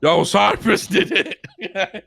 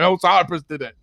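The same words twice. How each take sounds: First: High, drawn-out mock call through laughter; slow, giggling impression of someone calling out; laughing imitation. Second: Higher imitated call, laughter reined in; retold shout at only slightly raised volume; mock callout. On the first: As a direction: crack up while mimicking the callout. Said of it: "I'm sorry for laughing". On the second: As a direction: call it out as the other man did. Retold callout, retaken after laughing.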